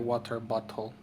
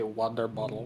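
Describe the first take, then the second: First: The t sounds are clear, crisp t sounds. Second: The t sounds are soft, like d sounds. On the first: "Americans don't say water bottle" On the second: "they say water bottle. Just D's"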